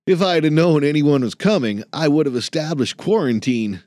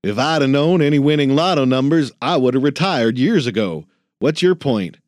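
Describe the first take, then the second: First: Put-on higher, prim young voice; a fussy young clerk, a bit above the narration; lightly voiced anxious student; nervous young man. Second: Louder, quicker gruff mockery of the clerk's phrasing; crusty old man parroting the kid; grumpy old janitor mocking. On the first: Jason, young work-study voice. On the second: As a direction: throw his own words back at him, gruff and fast. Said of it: "Ben cleared his throat".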